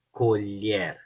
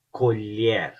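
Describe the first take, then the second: No difference in how they are said.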